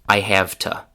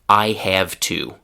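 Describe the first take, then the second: First: Have keeps its v, but to reduces to ta. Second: Every word is fully pronounced, with a clear to. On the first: "the pronunciation of to becomes ta" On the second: "the classic classroom pronunciation"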